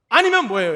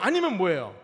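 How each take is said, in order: First: 아니면 thrown out loud and falling; emphatic loud question. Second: Said in the usual way. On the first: Shown as a demonstration. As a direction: press 아니면 hard, then drop. (아니면을 크게 힘주어)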